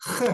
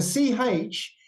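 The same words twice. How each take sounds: First: Ch said as a rasping throat sound, like Scottish loch; throaty ch. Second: Ch said as in church; a clear English ch sound, as in church, the wrong way. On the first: Teacher shows the right throaty ch to the class. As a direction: scrape ch at the back of the throat. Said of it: "it's a ch sound". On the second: Teacher shows the wrong ch, like church. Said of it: "The C H isn't a ch sound". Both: Shown as a demonstration.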